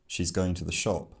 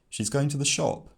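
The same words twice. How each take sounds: First: The pitch sounds like a plain informational statement. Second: The pitch sounds like a surprised exclamation or question. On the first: It simply gives information. "sounds like a sort of informational statement" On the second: The speaker is surprised by it. "sounds like a surprised exclamation or question"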